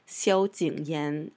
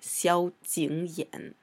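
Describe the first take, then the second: First: The last syllable has a rising tone. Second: The last syllable has a low dipping tone. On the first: This is how it is said in speech and the show. "they kind of change it to the second tone" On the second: This is the character's proper reading. "and not"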